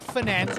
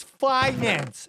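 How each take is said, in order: First: "finance" as fuh-NANCE; wrong pronunciation. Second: "finance" as FY-nance, drawn out; correct pronunciation. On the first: Streamer showing what it's not, fuh-NANCE for "finance". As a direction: say "finance" with a short first syllable, stressed second. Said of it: "It's not finance". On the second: Streamer correcting people who mispronounce it, FY-nance for "finance". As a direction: stretch "finance" with a long eye up front. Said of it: "It's finance". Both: Shown as a demonstration.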